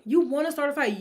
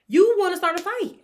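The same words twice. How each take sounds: First: Said in the usual way. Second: Much higher and louder, calling her out; indignant. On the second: Real, not acted. Scolding the mother who picked a fight, indignant and loud. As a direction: say it like an accusation.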